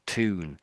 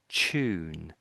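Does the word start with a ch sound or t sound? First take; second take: t sound; ch sound. First: The word starts with a t sound. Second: The word starts with a ch sound. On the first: "the Americans do say tune" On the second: "That's what we're really saying"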